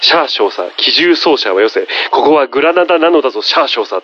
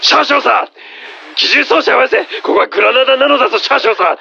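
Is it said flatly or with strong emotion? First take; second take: flatly; emotionally. First: It is said plainly, without emotion. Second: It is said with strong, dramatic emotion.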